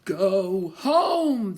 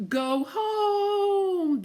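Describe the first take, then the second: First: Louder, eerie wind voice; a hint of a howling wind; squalling wind. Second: Very high, sliding wind call; high eerie yodel of the wind. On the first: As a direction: moan it like a storm gust. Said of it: "the wind squalled". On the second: Acted. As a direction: yodel it like a gale. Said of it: "the wind yodeled".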